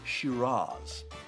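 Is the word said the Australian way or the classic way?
classic. It is said the classic way. "the classic pronunciation is Shiraz"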